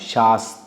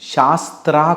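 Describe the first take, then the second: First: The final syllable has no r: 'ta'. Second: The final syllable has an r: 'tra'. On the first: The speaker calls it right. "త్రా కాదు" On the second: The speaker calls it wrong. "శాస్త్ర కాదు"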